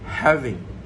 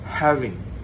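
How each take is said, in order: The two takes are said the same way.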